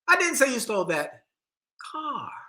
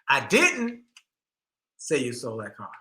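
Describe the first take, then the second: First: The word "car" carries the stress. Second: The word "didn't" carries the stress.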